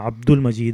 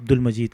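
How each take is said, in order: First: It begins with a throaty ain sound. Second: It begins with a plain vowel, no ain. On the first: The speaker calls it right. "मेरा नाम अब्दुल मजीद है" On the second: The speaker calls it wrong. "लोग अब्दुल मजीद कहते हैं"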